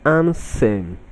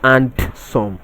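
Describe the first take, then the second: First: The d sound is left out entirely. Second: The d sound is clearly pronounced. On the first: The speaker calls it right. "pronounced as ansem ... The D in this word is silent" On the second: The speaker calls it wrong. "not and some"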